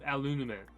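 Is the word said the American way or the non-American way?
American. It is said the usual American way. "I can't even say it the way that I used to say it"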